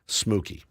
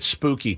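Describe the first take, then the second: First: The word begins with an sm sound. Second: The word begins with an sp sound. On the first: "as my little angels would say at home" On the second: "let's keep it spooky today"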